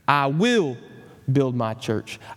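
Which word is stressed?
will. The word "will" carries the stress.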